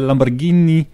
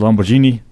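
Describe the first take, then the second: First: The name is said with an exaggerated Italian accent. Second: The name is said with a plain English accent. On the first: The speaker calls it right. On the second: The speaker calls it wrong.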